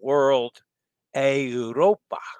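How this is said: The name is said with an Italian pronunciation. "which would be more of the Italian pronunciation"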